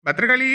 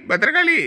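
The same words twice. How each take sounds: First: Said in the usual way. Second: Raised call to the wife. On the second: Acted. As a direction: call out again across the house. Calling wife from next room.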